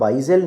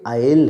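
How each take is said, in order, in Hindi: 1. 's' की ध्वनि शब्द में बोली जाती है। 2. 's' की ध्वनि शब्द में नहीं बोली जाती। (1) "अब आइजल नहीं है" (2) "ये आयल है"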